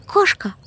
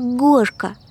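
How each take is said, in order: First: The word begins with a voiceless consonant. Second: The word begins with a voiced consonant. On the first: "Не кошка" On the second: "вместо глухих звуков говорю звонкие"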